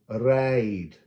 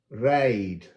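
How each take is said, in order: No difference in how they are said.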